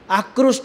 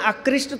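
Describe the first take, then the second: First: The vowel after 'kr' sounds like 'u'. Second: The vowel after 'kr' sounds like 'i'. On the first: The speaker calls it right. "आकृष्ट बोलते हैं ना" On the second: The speaker calls it wrong. "आकृष्ट थोड़े ही बोलते हैं"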